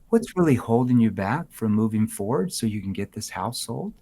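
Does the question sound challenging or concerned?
concerned. The question is asked in a caring, concerned tone. The asker cares and wants to help. The speaker calls it right. "I have empathy for you"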